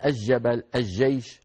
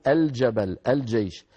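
First: "الجبل، الجيش" as aj-jabal, aj-jaysh, L dropped; mistaken assimilation. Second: "الجبل، الجيش" as al-jabal, al-jaysh, L sounded; clear lam. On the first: Teacher imitating the Levantine mistake, "الجبل، الجيش" pronounced aj-jabal, aj-jaysh. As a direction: say "الجبل، الجيش" with the L merged into a doubled J. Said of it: "هذا ما يصح". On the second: Teacher correcting the common error, "الجبل، الجيش" pronounced al-jabal, al-jaysh. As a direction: say "الجبل، الجيش" with a distinct L before each J. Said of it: "لا بد أن نقول". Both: Shown as a demonstration.

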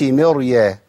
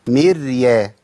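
First: Slow مريا with a thick, dark ر; wrongly heavy ر. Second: مريا with thin, held ر straight into ya; light still ر. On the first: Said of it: "ما أقولش مريا". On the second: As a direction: keep the ر of مريا light and vowelless. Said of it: "مرققة ساكنة". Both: Shown as a demonstration.

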